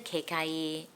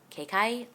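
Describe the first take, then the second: First: The name is said without two clipped syllables. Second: The name is said as two clipped syllables.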